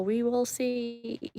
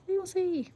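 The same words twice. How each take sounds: First: Slow and soft, drawn right out. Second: Much higher, soft sing-song take. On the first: Streamer musing to chat about dinner, slow and soft. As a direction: let it stretch, softer, as if mulling it over. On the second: Streamer teasing chat with a repeat, high and sing-song. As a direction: toss it up high and playful. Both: Pretend.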